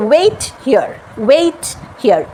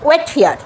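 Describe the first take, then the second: First: ওয়েট হিয়ার with a long "weit"; ei glide. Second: ওয়েট হিয়ার with short "wet"; common mispronunciation. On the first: Teacher models the correct wait here, ei glide. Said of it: "এই sound আছে". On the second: Teacher shows what Bengalis say, common mispronunciation. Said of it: "তা কিন্তু হলো না". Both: Shown as a demonstration.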